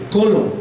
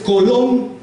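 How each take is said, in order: First: "colon" stressed on its first syllable, CO-lon. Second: "colon" stressed on its final syllable, co-LON; stress on last syllable. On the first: Retold or imitated. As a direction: lean on the CO of "colon", let "lon" drop. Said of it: "la penúltima, más fuerte que la última". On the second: Shown as a demonstration. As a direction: put the force on the LON of "colon". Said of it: "La última es, aquí en este ejemplo".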